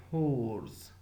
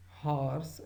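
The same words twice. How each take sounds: First: "horse" with a long, rounded o gliding toward the r; extra diphthong. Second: "horse" with an open, ah-like vowel; first vowel of the distinction. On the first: Lecturer showing the extra diphthong, round-vowelled "horse". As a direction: say "horse" as drawn-out "hoh-ers". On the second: Lecturer contrasting two old vowel sounds, open-vowelled "horse". There was a distinction between. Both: Shown as a demonstration.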